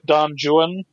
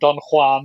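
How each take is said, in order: First: Juan is said in the poet's own way. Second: Juan is said in the other, usual way. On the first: This is how the poet himself said the name. The speaker calls it right. "which that's how he pronounced it" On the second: This is not how the poet said the name. The speaker calls it wrong. "not Don Juan"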